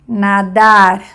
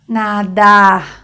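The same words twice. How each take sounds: First: The final r sounds like a Spanish r. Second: The final r sounds like a French r. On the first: "semejante de español" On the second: "semejante al de francés o a un J en español"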